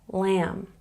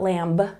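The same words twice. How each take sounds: First: The final B is silent. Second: The final B is pronounced. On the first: The speaker calls it right. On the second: The speaker calls it wrong.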